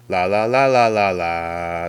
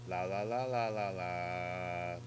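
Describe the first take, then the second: First: The recording level is turned up. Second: The recording level is turned down. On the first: "if I turn the volume, the main mix volume up" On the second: "If I turn the volume down"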